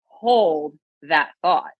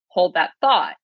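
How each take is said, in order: First: The word hold carries strong emphasis. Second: The word hold is not specially stressed. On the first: It means actively holding on to the thought. "when you say it this way ... That verb, hold" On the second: It is a casual everyday request to pause. "we say that all the time"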